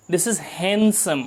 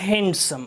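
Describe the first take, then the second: First: Handsome with a silent d, "hansum"; handsome said right. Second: Handsome with the d said, "hand-some"; the mistaken handsome with a d; wrong handsome. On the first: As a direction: drop the d in handsome. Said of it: "This is handsome, not handsome". (handsome को हैनसम बोलें, d silent) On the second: (handsome में d बोलकर गलत उच्चारण) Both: Shown as a demonstration.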